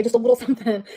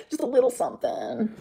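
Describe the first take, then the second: First: Said in the usual way. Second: Slower, softer teasing repeat; a coy, quieter "Just a little something". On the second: Shown as a demonstration. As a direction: dangle it like a little secret. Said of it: "It's my turn to say just a little something".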